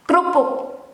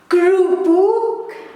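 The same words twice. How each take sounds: First: The word is pronounced without the first e vowel. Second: The word is pronounced the Dutch way. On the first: This is the informal everyday form. "slang pronunciation" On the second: This is how Dutch speakers say it. "The Dutch pronunciation"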